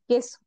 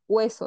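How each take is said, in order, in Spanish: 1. No se oye un sonido 'w' después del sonido 'k'. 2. Se oye un sonido 'w' después del sonido 'k'. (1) "decimos queso" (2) "no decimos hueso"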